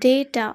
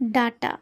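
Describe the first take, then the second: First: The first vowel sounds like ay. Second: The first vowel sounds like ah. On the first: The speaker calls it right. "এইভাবে আমরা উচ্চারণ করব" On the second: The speaker calls it wrong. "একেবারেই একটা ভুল উচ্চারণ"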